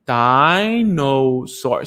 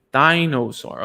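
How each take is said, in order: First: Drawn out slowly, syllable by syllable; slow syllable-timed model word. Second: Said in the usual way. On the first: Shown as a demonstration. Therapist slowly modelling the word for the child to copy. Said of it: "Say it together". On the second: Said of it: "you put it up and you say".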